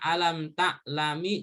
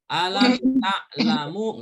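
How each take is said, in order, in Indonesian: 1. Kata terakhir diakhiri dengan vokal i. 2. Kata terakhir diakhiri dengan vokal u. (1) "Dibaca alam ta'lami juga nggak boleh" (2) "nggak boleh dibaca alam ta'lamu"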